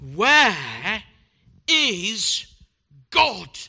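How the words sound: It is said in the sternest tone.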